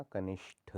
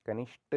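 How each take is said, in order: First: कनिष्ठ ending in breathy retroflex tha; aspirated th. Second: कनिष्ठ said as kanisht; no puff of air ending कनिष्ठ; unaspirated final t. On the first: Teacher corrects it, कनिष्ठ with breathy ठ. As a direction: puff air on the ठ of कनिष्ठ. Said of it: "होता है". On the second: Teacher shows the error, कनिष्ठ with ट. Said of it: "नहीं होता". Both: Shown as a demonstration.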